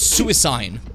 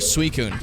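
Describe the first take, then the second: First: The name ends with a 'seen' sound. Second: The name ends with a 'coon' sound. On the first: The speaker calls it wrong. "we got a different one from his friend, which was Suicine" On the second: The speaker calls it right. "for Suicune"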